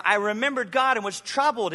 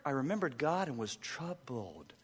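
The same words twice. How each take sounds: First: Louder, raised and pressing; emphatic declaration. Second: Quiet reflection. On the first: Pastor driving the verse home to the crowd, emphatic. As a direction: say it with urgent force. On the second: Pastor repeating the verse softly for the church to ponder. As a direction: say it gently, almost to yourself. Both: Shown as a demonstration.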